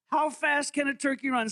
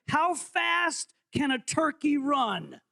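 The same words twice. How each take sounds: First: Said in the usual way. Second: Slow, drawn-out quiz question; quiz host. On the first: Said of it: "repeat at normal pace". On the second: Shown as a demonstration. Host reading the quiz question slowly to the room. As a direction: stretch the question like a game show. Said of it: "quiz host reading question".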